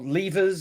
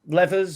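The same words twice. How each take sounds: First: It is said with a British pronunciation. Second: It is said with an American pronunciation.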